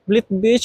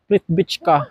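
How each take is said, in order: First: The name ends with a sound like 'beach'. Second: The name ends with a sound like 'vitska'. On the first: The speaker calls it wrong. "How you could pronounce it?" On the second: The speaker calls it right. "That is the correct pronunciation of this place"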